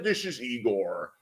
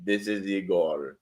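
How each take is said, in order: First: Put-on low, slow Sean Connery-like Russian accent; a bad Russian accent that lands on Sean Connery; botched Russian accent. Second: Put-on low, slow Russian accent. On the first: Playing a Russian caller, in a botched Russian accent. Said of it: "That's a Sean Connery accent". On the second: Retrying the Russian caller Igor, low Russian accent. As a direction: lay on a deep, quieter Russian accent.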